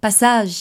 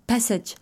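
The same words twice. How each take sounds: First: "passage" said the French way; French pronunciation. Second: "passage" said the English way; English pronunciation. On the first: Host repeats the idea for listeners, French pronunciation. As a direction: say "passage" in French, stressed last syllable ending in zh. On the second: Host glosses the idea for listeners, English pronunciation. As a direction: say "passage" in English, ending in a soft j. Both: Real, not acted. Same word given in English, then French.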